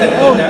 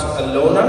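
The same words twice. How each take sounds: First: Louder, higher "Alina", middle vowel as in "lean"; Alina pronunciation. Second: "Alona" with an "oh" in the middle, rising as a question; Alona pronunciation. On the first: Comedian asking woman about her name, stressed "Alina" with an ee. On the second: Comedian checking why she changed her name, questioning "Alona" with an oh. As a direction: ask "Alona?", middle vowel as in "loan". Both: Shown as a demonstration. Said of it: "people can't, uh, pronounce Alona".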